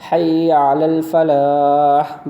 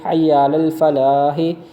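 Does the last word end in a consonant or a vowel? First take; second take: consonant; vowel. First: The last word ends on an audible h sound. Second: The last word ends with a final vowel.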